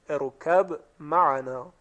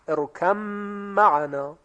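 First: The b is released separately before the m. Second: The b merges fully into the following m. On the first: "قلقله حرف با ظاهر می شود با ساکن" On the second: "مدغم و مدغمان فیه در یکدیگر ادغام میشوند"

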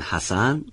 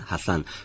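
First: The middle consonant is a plain s sound. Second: The middle consonant is a lisped th sound. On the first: "به جایی که بگن حسن" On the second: "میگن حسن"

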